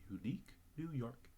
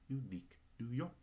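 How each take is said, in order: The two takes are said the same way.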